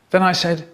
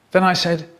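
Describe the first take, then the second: No difference in how they are said.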